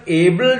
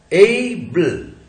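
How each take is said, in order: First: Said in the usual way. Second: एबल very slowly, long ei glide, then bl; drawn-out diphthong. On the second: Shown as a demonstration. Teacher showing its vowel and syllable, drawn-out demonstration. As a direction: stretch the first vowel of एबल. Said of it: "ए, diphthong लगाया हुआ अपन ने".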